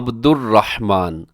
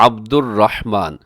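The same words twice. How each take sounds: No difference in how they are said.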